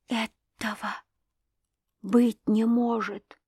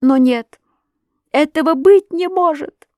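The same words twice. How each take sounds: First: Hushed, halting disbelief; barely audible whisper. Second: High, loud denial; anguished cry. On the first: Wife stunned by the accusation, barely audible whisper. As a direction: whisper it slowly, with long breaks. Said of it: "прошептала она едва слышным голосом". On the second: Wife rejects the accusation, anguished cry. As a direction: cry out in refusal to believe. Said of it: "закричала она опять". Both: A narrator's reading.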